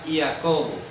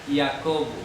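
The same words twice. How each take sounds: First: It begins with a y-like sound. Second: The same.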